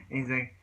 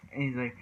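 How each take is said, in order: Both takes have the same delivery.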